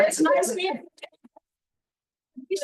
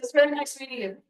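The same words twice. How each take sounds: First: Starstruck greeting. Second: Said in the usual way. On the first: Retold or imitated. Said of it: "So I go back to the". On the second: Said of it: "and I said".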